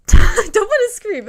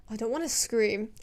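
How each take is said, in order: First: High loud laughing protest. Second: Said in the usual way. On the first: Real, not acted.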